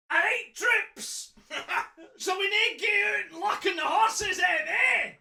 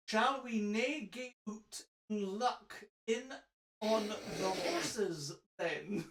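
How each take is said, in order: First: High, loud broad Fife voice; hammed-up Fife Scots, pitched right up; Fife accent. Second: Slow, measured mock-RP on Scots words; over-careful RP English, spaced out and soft; RP accent. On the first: Reader playing the villain rallying his troops, broad Fife accent. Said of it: "Aye, then I can". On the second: Shown as a demonstration. Reader showing the English version for contrast, slow RP accent. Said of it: "in an R P dialect".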